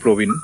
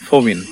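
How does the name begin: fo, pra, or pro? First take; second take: pro; fo. First: The name begins with a p and an o vowel. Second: The name begins with an f and an o vowel. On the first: This is how Assamese speakers say it. "In Assamese it will be Provin" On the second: This is how Boro speakers say it. "it'll become Fo, Fovin"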